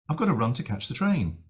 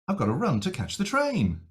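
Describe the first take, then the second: First: Mildly anxious, with a gentle pitch shape. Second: More anxious, with a bigger pitch shape. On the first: The speaker is slightly worried about the train. "basically use the same pitch shape" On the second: The speaker is more worried or irritated. "more and more anxious"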